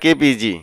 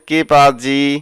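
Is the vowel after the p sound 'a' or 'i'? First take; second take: i; a. First: The vowel after the p is an i. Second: The vowel after the p is an a. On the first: The speaker calls it wrong. "আপনারা বলবেন না কে পিজি" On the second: The speaker calls it right. "বলবেন কে পাজি"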